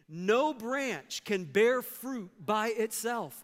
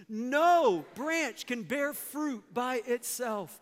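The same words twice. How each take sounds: No difference in how they are said.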